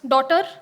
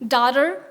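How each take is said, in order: First: It is said with an Indian English accent. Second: It is said with an American English accent. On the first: "Give it to an Indian and they would pronounce it as" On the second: "the American pronunciation would probably be"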